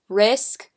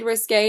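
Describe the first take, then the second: First: It sounds exactly like the word risk. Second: It does not sound like the word risk. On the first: The speaker calls it wrong. "I always said risk, which is obviously wrong" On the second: The speaker calls it right. "it's the shade Risque"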